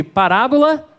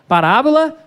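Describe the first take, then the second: First: Said in the usual way. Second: Parábola said higher and louder, every syllable given; called out for the congregation. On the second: Shown as a demonstration. Preacher prompts the congregation to say it, Parábola called out loud. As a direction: lead the church by calling out Parábola. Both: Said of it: "Vamos lá, irmãos, ajuda aí".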